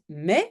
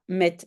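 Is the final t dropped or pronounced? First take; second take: dropped; pronounced. First: The final t is dropped. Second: The final t is clearly pronounced. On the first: It is informal in-between speech. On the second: It is the standard form.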